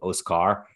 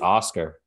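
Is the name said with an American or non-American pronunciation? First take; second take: non-American; American. First: The name is said with a non-American pronunciation. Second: The name is said with an American pronunciation. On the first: The speaker calls it right. "Is probably how it's really said" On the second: The speaker calls it wrong. "That's just like me being like an American"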